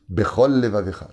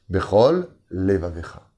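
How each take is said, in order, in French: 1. Les deux sons L se fondent en un seul. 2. Les deux sons L sont clairement séparés. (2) "je fais attention de bien les séparer"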